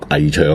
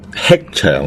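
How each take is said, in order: First: The first syllable sounds like ngai. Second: The first syllable sounds like hek. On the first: The speaker calls it wrong. "唔好读危长" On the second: The speaker calls it right. "可以读吃长"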